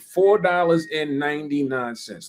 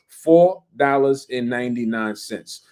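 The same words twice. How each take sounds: First: The phrase is said at a normal, quicker pace. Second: The phrase is said at a slow, deliberate pace.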